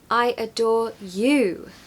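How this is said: The stress falls on the word you. "Here we have the stress on you"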